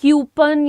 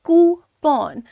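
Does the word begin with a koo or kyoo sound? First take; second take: kyoo; koo. First: The word begins with a kyoo sound. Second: The word begins with a koo sound. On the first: The speaker calls it wrong. "ये सब गलत है" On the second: The speaker calls it right. "Simple pronunciation is कूपन"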